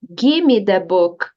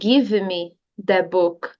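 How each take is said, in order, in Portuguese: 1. O som do V é omitido, resultando em "gimme". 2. O som do V em "give" é claramente pronunciado. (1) "É como se esse V E não existisse" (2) "você tem a opção de dizer give me the book"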